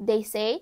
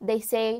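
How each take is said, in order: Both takes have the same delivery.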